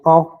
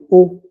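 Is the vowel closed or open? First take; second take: open; closed. First: The vowel is an open o sound. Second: The vowel is a closed o sound. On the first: "quand ce n'est pas entièrement fermé, c'est O" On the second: "Quand c'est fermé, c'est O"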